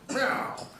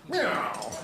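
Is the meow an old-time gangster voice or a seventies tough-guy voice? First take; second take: old-time gangster; old-time gangster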